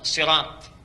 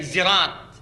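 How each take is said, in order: First: The word begins with an emphatic s sound. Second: The word begins with a z sound. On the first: A tribe that cannot say sin reads it this way. "mereka baca dengan sod sirat" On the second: A tribe that cannot say sin or sod reads it this way. "Dia baca dengan zai zirat"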